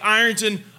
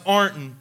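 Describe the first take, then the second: First: The name is said with three full syllables. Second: The name is said squeezed into two syllables.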